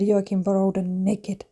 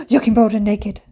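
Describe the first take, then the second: First: Slow, softer, deliberate repeat; sheepishly drawn-out quote of the outburst; deadpan retelling. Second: Re-enacted involuntary exclamation; sudden outburst. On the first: Retold or imitated. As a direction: spell out the outburst slowly and quietly. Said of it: "just burst out and said". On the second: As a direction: gasp and blurt it out. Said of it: "I just literally burst out".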